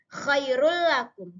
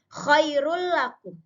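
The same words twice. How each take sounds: The two takes are said the same way.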